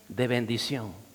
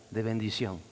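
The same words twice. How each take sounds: The two takes are said the same way.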